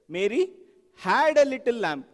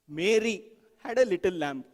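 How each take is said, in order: First: The word had carries the main stress. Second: The word Mary carries the main stress. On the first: She owned it in the past, not now. "Emphasize the next word" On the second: It was this person and no one else. "You emphasize each word"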